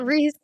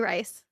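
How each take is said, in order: First: The vowel sounds like the one in 'see'. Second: The vowel sounds like the one in 'ice'. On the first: The speaker calls it right. "I know" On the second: The speaker calls it wrong. "I say Rice"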